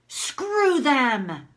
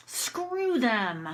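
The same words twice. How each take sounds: First: Raised-pitch angry dismissal; demonstrated open anger. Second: Held-back dismissal at everyday volume; demonstrated restrained anger. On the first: Woman alone finally lets herself vent about them, angry. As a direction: let it out forcefully. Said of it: "I can let myself have my anger". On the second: Teacher models venting about them, mildly angry. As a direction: let the anger out only a little. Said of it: "I'm just gonna do anger". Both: Shown as a demonstration.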